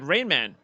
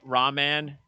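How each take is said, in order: First: The name is said like 'rain-man'. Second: The name is said like 'rah-man'. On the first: The speaker calls it wrong. "because it's not Rainman" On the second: The speaker calls it right. "Ra- Rahman"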